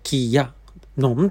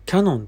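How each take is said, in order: First: The ya is a separate full syllable. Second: The ya merges with ki as one glide. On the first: The speaker calls it right. "正式にはキヤノンと、やも大きい" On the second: The speaker calls it wrong. "やが小さく発音する方いらっしゃいますが"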